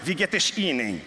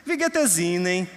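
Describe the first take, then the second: First: Put-on German greeting in a carioca accent, "es" said "esh"; "Wie geht es Ihnen?" with a hushing carioca sh on "es". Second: Put-on German greeting in a Northeastern Brazilian accent, "es" with a plain s; "Wie geht es Ihnen?" with a light Nordeste lilt, s as in "ez". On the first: Rio newcomer greeting the speaker, light carioca accent. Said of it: "esse é carioca". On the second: Newcomer from the Northeast greeting the speaker, mild Northeastern Brazilian accent. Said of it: "esse vem do Nordeste".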